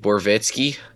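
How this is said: The name is said with a Southern twang. "I have friends that would be like Borowiecki"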